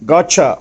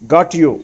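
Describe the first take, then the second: First: The t and y merge into a ch sound. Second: The t and y are kept separate.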